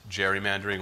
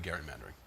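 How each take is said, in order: First: It begins with a soft 'j' sound. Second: It begins with a hard 'g' sound.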